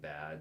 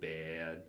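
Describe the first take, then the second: First: The vowel is said the standard way. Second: The vowel is said with a shifted quality. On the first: "instead of saying bad" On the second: "the vowel shift that kind of goes on"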